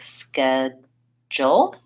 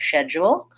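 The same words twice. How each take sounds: First: The word begins with an sk sound. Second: The word begins with an sh sound. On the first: "We say an S and a K. So we really could spell it like schedule" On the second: "the British uh, might say this more like schedule, um, where they say an S H sound"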